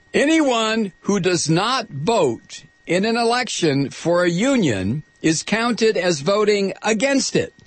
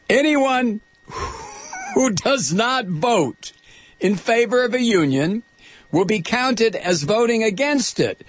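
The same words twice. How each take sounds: First: Said in the usual way. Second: "Anyone who does not vote" spaced out slowly and pitched much higher, each chunk pressed; slow emphatic repeat. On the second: Shown as a demonstration. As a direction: hammer home each phrase, pausing between them. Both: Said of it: "Do you get that?".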